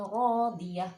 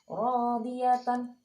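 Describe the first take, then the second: First: The word ends with a soft -ah sound. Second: The word ends with a full -atan sound. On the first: The word is read at a stop. "dibacanya rodiyah" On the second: The word is read in connected flow. "Biasanya kita baca rodiyatan"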